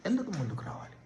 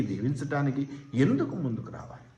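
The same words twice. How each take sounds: First: Softer, almost hushed echo of the question; hushed repeat. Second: Said in the usual way. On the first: Shown as a demonstration. Preacher to congregation, a hushed rhetorical echo. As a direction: drop the question to a near hush.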